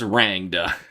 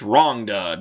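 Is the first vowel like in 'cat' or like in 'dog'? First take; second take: cat; dog. First: The first vowel sounds like the a in cat. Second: The first vowel sounds like the o in dog. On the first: The speaker calls it wrong. "I thought it was Rangda" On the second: The speaker calls it right. "it would have been spelled with an O"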